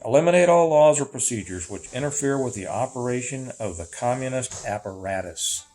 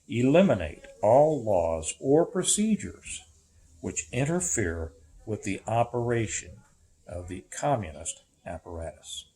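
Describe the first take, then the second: First: It is read at a faster pace. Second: It is read at a slower pace.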